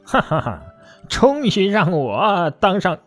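It is said with a sinister, gloating laugh.

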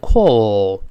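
The vowel is a long rounded o sound. "英式发音呢读成call，它把o 发长音"

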